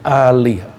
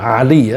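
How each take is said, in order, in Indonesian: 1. Vokal pertama dibunyikan panjang. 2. Vokal pertama pendek, seperti namanya. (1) "tapi Ali. Ali yang artinya keluarga" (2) "bukan Ali ya"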